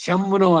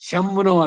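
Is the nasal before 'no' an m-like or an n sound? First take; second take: m-like; m-like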